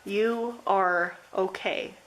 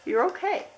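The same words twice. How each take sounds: First: Slow, steady, reassuring; slow reassurance. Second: Much higher, lilting okay; bright lifted reassurance. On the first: Reading the last message to group three, slowly reassuring. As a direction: say it slowly, like a promise. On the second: Reading the last message to group three, lifted high and light. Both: Acted. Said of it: "this last message I have for you says".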